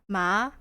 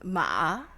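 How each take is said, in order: First: It is said with the second Mandarin tone. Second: It is said with the third Mandarin tone. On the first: It means hemp. "Second one is I think it's hemp" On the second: It means horse. "the third one is ma, which is horse"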